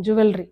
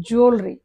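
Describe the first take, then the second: First: జ్యువెలరీ with a full "vel"; common mispronunciation. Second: జ్యువెలరీ squeezed to "jool-ree"; two-beat జ్యువెలరీ, "jool" then "ree"; corrected pronunciation. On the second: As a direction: say జ్యువెలరీ without any V. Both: Shown as a demonstration. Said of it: "అది జ్యువెలరీ కాదు".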